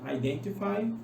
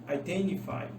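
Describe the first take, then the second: First: The t after the n is clearly pronounced. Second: The t after the n is dropped. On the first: "tanto T" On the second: "quanto N"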